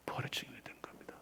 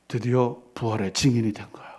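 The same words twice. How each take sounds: First: Fast breathy whisper. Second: Said in the usual way. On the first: Real, not acted. Pastor echoing that Peter became a witness, whispered. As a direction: rush it out in a whisper.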